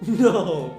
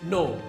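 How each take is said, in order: First: It is said in a playful tone. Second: It is said in a firm tone.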